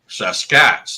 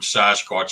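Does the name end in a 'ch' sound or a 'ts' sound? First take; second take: ts; ch. First: The name ends with a 'ts' sound. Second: The name ends with a 'ch' sound. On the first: The speaker calls it right. "the Stahelis word Saskats" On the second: The speaker calls it wrong. "a misspelling and a mispronunciation"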